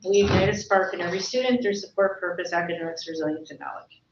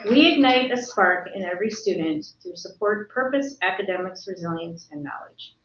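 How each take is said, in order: First: It is read at a normal pace. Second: It is read more slowly and deliberately.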